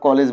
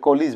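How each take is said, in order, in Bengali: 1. দ্বিতীয় স্বরধ্বনিটি 'eh' এর মতো শোনায়। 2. দ্বিতীয় স্বরধ্বনিটি 'ih' এর মতো শোনায়। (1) "আমরা কলেজ বলি" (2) "আসলে কলিজ বলা উচিত"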